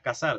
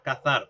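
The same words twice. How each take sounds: First: It is said in a non-northern-Spain accent. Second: It is said in a central-northern Spain accent. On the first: "no dirás cazar" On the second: "si eres un hablante del centro norte de España, dirás cazar"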